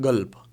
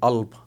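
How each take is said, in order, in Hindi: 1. यह शब्द g व्यंजन से शुरू होता है। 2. पहला व्यंजन साइलेंट है; यह स्वर से शुरू होता है। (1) "कुछ लोग गल्ब भी बोलते हैं" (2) "इसका जो काफ है वो साइलेंट रहता है"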